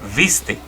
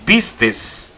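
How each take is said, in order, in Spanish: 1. La palabra termina en vocal, sin s. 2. La palabra termina con un sonido s extra. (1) "la forma correcta de decir es viste" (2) "La palabra vistes tiene una, una letra de más"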